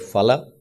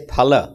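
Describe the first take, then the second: First: It is said with the other Indian-language pronunciation. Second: It is said with the Sanskrit pronunciation. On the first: The speaker calls it wrong. "we don't say phala. Phala is said in many of the Indian languages" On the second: The speaker calls it right. "In Sanskrit, we say phala"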